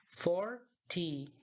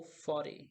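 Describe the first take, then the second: First: Forty with the T fully sounded; forty, British style; clear T. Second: Forty with the T softened to a quick tap; forty, American style with a tapped T; dropped T. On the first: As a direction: say forty with a crisp T. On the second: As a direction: say forty as "fordy". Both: Shown as a demonstration. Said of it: "tem duas formas de falar".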